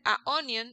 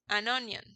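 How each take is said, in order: First: No n sound comes between article and noun. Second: An n sound joins the article to the noun. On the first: The speaker calls it wrong. "Y para decir a onion, no" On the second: The speaker calls it right. "Queda más fácil"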